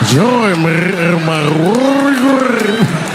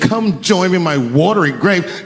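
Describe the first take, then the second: First: It is said with a rolling, gurgling throat. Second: It is said in a plain voice.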